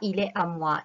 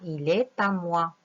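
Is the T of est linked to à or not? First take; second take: not linked; linked. First: The T of est is not linked to à. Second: The T of est is linked to à. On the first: The speaker calls it wrong. "On ne dit pas il est à moi" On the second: The speaker calls it right. "On va mettre une petite liaison entre le T et le A"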